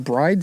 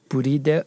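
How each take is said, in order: First: It is said as one English syllable, bride. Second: It is said as three Japanese syllables, bu-ri-do.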